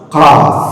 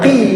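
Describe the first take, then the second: First: The letter is read as full qaf. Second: The letter is read as a short qi. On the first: The speaker calls it right. "harus qaf" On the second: The speaker calls it wrong. "Tidak boleh kita baca qi"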